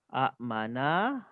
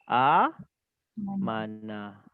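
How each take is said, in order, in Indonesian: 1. Hentian glotal mengikuti vokal pertama yang pendek. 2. Vokal pertama panjang, tanpa hentian. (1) "asal dia amana"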